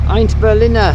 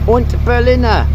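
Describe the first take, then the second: First: The first word sounds like 'ein'. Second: The first word sounds like 'und'. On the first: The speaker calls it right. "but it's Eint Berliner" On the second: The speaker calls it wrong. "I said Und Berliner before"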